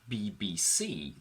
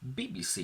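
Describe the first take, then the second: First: The stress is on the final letter C. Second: The stress is on the first letter B. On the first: The abbreviation stands on its own. "the stress was on C" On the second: The abbreviation is followed by another noun. "the stress was on the first B"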